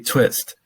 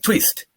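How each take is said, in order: First: The vowel is a short 'ih' sound. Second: The vowel is a long 'ee' sound. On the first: The speaker calls it right. "you gotta say twist" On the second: The speaker calls it wrong. "he was struggling with the word twist"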